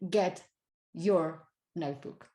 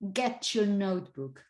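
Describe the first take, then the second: First: The t and y are kept separate. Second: The t and y merge into ch. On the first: "rather than" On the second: "you might get ch. This is why you typically tend to say"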